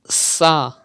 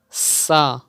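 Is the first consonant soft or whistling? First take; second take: whistling; whistling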